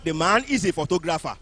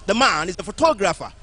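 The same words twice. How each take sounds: First: PHOTOGRAPHER lower, without the punch on TO; wrong stress. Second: Loud, with PHOTOGRAPHER peaking on its second syllable TO; correct stress. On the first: Teacher showing what not to say, misplaced stress. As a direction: say PHOTOGRAPHER with the second syllable left unstressed. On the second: Teacher modelling the right sentence, second-syllable stress. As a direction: punch the TO in PHOTOGRAPHER. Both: Shown as a demonstration. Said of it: "not The man is a photographer".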